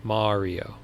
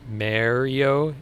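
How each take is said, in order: First: "Mario" with an open ah, MAH-ree-o; other pronunciation of Mario. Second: "Mario" with a flat a, MARRY-o, drawn out; own pronunciation of Mario. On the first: Streamer trying out the corrected name, MAH-ree-o. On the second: Long Island streamer testing his usual way, MARRY-o. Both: Shown as a demonstration. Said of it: "is pronounced".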